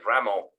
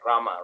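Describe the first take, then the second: First: The final vowel is a strong o sound. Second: The final vowel is a plain a sound. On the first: People from certain regions say it this way. "very mm. strong. The O sounds yeah. like almost like Ramo" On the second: This is the standard way to say it. "But it's uh, Rama, right?"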